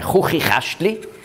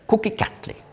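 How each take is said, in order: First: The consonants are a throaty ch sound. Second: The consonants are a plain k sound. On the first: This is not how the Greek letter was pronounced. The speaker calls it wrong. "Also nicht das Schweizerdeutsche Chuchichastli" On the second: This is how the Greek letter was pronounced. The speaker calls it right. "im Altgriechischen hat man das Chi auch K ausgesprochen"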